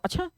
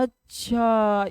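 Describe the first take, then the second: First: It is said with a tone of surprise. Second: It is said with a tone of understanding. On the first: The news is unexpected. "किसी बात को आश्चर्य के रूप में लेना" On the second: The point has been understood. "आपने उस बात को समझ गया"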